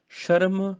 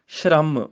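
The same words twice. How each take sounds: First: ਸ਼ਰਮ as sha-ram; full r. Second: ਸ਼ਰਮ as shramm; half r. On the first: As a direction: say ਸ਼ਰਮ with a vowel between sh and r. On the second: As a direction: join sh and r in ਸ਼ਰਮ, falling. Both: Shown as a demonstration. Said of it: "ਅੱਧਾ ਆਵੇ ਤੇ ਅੱਧਾ ਉਚਾਰਨ".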